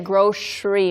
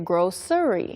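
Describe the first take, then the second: First: The middle consonant is an sh sound. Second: The middle consonant is a plain s sound. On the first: This is how people say it where the speaker is from. "like a S H sound more" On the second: This is how people say it in some other places. "And in some places they say grocery"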